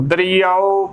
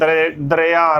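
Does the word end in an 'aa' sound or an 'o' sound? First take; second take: o; aa. First: The word ends in a rounded 'o' vowel. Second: The word ends in an open 'aa' vowel. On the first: This is the form used when reciting scripture. The speaker calls it right. "Gurbani ਦੇ ਵਿੱਚ ਬੋਲਣਾ ਹੈ ਦਰਿਆਓ" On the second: This is the everyday spoken form of the word. The speaker calls it wrong. "ਆਮ ਭਾਸ਼ਾ ਦੇ ਵਿੱਚ ਪੰਜਾਬੀ ਦੇ ਵਿੱਚ ਅਸੀਂ ਦਰਿਆ ਆਖਦੇ ਨੇ"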